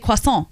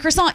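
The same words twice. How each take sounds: First: It is said with a French accent. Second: It is said with an English accent. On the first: "in the accent of the language that word comes from" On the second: "instead of saying croissant"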